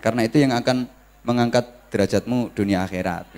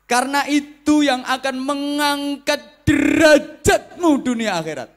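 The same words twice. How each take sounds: First: It is said plainly with flat intonation. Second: It is said with lively, emphatic preacher intonation.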